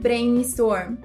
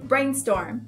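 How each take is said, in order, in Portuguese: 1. A palavra é pronunciada com sons do português brasileiro. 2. A palavra é pronunciada com sons do inglês. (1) "eu falei que eu faço um brainstorm de ideias" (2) "Então vamos corrigir"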